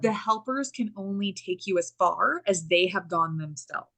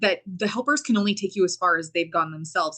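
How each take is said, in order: First: It is said slowly and deliberately. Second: It is said at normal speed.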